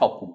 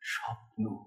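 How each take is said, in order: First: It is said plainly and clearly, without feeling. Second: It glides softly across gentle, dreamy notes. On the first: "পরিষ্কার স্পষ্ট উচ্চারণ" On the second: "এই দুটো কোমল পর্দার ওপর দিয়ে এই স্বরটা গড়িয়ে গেল"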